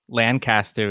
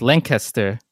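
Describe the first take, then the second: First: "Lancaster" as LAN-caster; "Lancaster" said the way it is written, LAN-CAST-er; spelling pronunciation. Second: "Lancaster" as LINK-iss-ter; "Lancaster" stressed up front, no "cast" sound; local pronunciation. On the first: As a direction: give "Lancaster" a full "cast" in the middle. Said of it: "how you would think Lancaster would be pronounced". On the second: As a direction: swallow the middle of "Lancaster", LANK-uh-ster. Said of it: "But it's Lancaster". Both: Shown as a demonstration.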